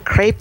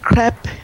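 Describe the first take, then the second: First: The word has an American pronunciation. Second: The word has a French pronunciation.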